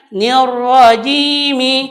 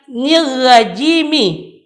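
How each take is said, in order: First: The r sound is thick and heavy. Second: The r sound is thin and light. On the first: The speaker calls it right. "Maka yang benar adalah bacanya nirrajimi" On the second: The speaker calls it wrong. "Itu salah. Dia tidak meletakkan makhraj huruf ra dengan benar"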